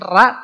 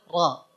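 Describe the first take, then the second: First: The vowel is a thin, light 'a'. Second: The vowel is a thick, heavy 'a'. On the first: The speaker calls it wrong. "Bukan ra" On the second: The speaker calls it right. "tapi ra yang nebel"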